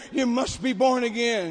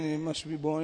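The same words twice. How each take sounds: First: Said in the usual way. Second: Low, soft imitation of mumbling. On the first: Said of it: "And so I'm over here". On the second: Untrained interpreter repeating the preacher's words, low mumbling. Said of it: "And he says, mumbling".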